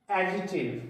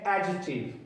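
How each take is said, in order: Both takes have the same delivery.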